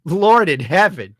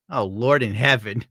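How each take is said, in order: First: Higher, loud, drawn-out exclamation; exasperated, stretched-out appeal to heaven; louder dismay. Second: Said in the usual way. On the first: Real, not acted. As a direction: cry it out slowly in dismay. Repeats his dismayed exclamation louder.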